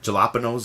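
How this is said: The word is said with English-style sounds.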